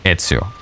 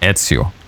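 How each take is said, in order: Both takes have the same delivery.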